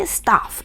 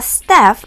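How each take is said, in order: First: It is said with a British vowel. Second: It is said with an American vowel.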